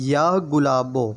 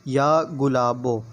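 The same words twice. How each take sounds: The two takes are said the same way.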